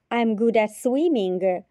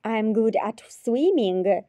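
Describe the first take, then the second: No difference in how they are said.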